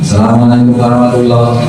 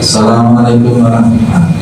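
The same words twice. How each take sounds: Both takes have the same delivery.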